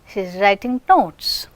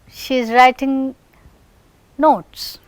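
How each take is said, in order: First: The word 'is' is contracted to 's. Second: The word 'is' is said in full.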